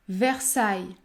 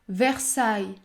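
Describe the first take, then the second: Both takes have the same delivery.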